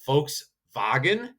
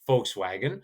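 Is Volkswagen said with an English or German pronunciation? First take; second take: German; English. First: The V sounds like F, the W like V. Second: The V and W sound as in English. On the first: "it's Volkswagen in German" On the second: "We would say Volkswagen"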